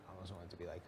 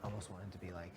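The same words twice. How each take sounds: The two takes are said the same way.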